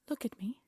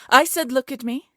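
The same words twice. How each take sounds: First: Hushed menacing order; quiet menace. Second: Much louder, higher barked repeat; enraged queen shouting; furious shout. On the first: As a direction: murmur it like a threat. Queen interrogates captured thief. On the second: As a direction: blast the order at her. Queen repeats ignored command. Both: Acted.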